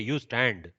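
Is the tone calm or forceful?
forceful. It is said in a forceful, emphatic way. The speaker calls it wrong. "It is not like, hey, ... don't read it like that"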